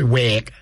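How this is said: It is said in a Scouse accent.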